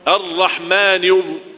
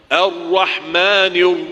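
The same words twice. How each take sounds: The two takes are said the same way.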